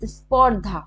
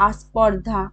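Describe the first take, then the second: First: Said in the usual way. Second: আস্পর্ধা opening on a clear "a"; vowel added in front. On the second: Shown as a demonstration. Teacher showing a vowel at word start, আস্পর্ধা with leading "a". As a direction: say আস্পর্ধা as "as-pordha". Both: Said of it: "শব্দের আগে স্বরধ্বনি কিভাবে এসছে".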